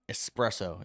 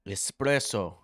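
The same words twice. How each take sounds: First: The word is said in a plain accent. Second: The word is said in an Italian-style accent. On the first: "Is that how you say it?" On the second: "like the Italians"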